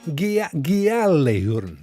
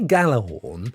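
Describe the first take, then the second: First: The word begins with a g then a y sound. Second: The word begins with a plain g sound. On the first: The speaker calls it right. "you actually pronounce the G and the Y of the J" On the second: The speaker calls it wrong. "if you say Galahorn, you're not a million miles out"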